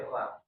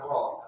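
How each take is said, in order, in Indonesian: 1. Bunyi r itu ringan dan tipis. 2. Bunyi r itu berat dan tebal. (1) "dibaca tipis ra" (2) "bukan ro"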